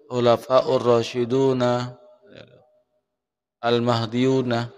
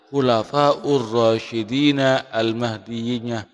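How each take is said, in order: First: The last two words end in -una. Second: The last two words end in -ina. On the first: The speaker calls it wrong. "Bukan pakai waw, bukan pakai doma" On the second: The speaker calls it right. "Yang benar, ya, ... Pakai jer"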